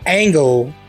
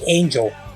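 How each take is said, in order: First: It is said in a Hot Fuzz accent. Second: It is said in his ordinary accent.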